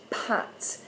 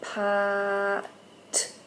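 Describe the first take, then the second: First: "pat" breathed out, unvoiced and soft; whispered pat. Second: "pat" said as one smooth word after the sounds; blended word. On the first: Teacher repeats the word for parents, in a whisper. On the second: Teacher showing the blended word to parents, slow demo. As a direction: join the sounds into "pat" at the end. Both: Shown as a demonstration. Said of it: "we're gonna go".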